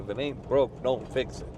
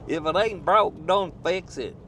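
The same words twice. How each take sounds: First: It is said in a plain, natural voice. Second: It is said in an imitated, put-on voice.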